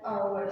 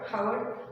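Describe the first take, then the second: First: The word begins with a vowel, no h. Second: The word begins with an audible h sound. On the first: The speaker calls it right. "you need to pronounce it as our" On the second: The speaker calls it wrong. "we don't pronounce it as hour"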